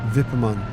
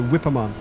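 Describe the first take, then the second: First: The name begins with a V sound. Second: The name begins with a W sound. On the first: "I guess it's pronounced V" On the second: "It's spelled with a W. So we would say"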